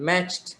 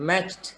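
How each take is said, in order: Both takes have the same delivery.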